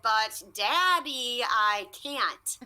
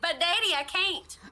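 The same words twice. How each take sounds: First: It is said slowly, drawn out. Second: It is said at a normal speed.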